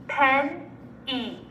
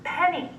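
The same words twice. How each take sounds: First: Pen-e as pen, pause, ee; chopped into syllables. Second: Said in the usual way. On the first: Shown as a demonstration. Teacher segmenting Pen-e with students, chopped into syllables. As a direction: chop Pen-e into two separate syllables. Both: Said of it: "segment or chop it".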